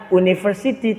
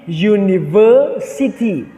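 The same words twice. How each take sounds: First: It starts with a plain vowel sound. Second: It starts with a y sound. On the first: The speaker calls it wrong. "tidak menyebutnya university" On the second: The speaker calls it right. "tapi university ... diawali dengan bunyi bunyinya itu Y"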